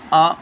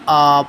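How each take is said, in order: First: The vowel is short and clipped. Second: The vowel is stretched out long. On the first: The speaker calls it right. "Short करके पढ़ा जाएगा" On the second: The speaker calls it wrong. "ना कि आ पढ़ेंगे"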